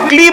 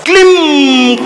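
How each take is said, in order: First: The word ends in a plain vowel, no nasal. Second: The word ends with a nasal m sound. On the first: The speaker calls it wrong. "अभी तो क्ली बोल रहा है, अनुस्वार कहां लगाया" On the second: The speaker calls it right. "अनुस्वार कहां लगाया, वो अंग की बिंदी कहां लगी"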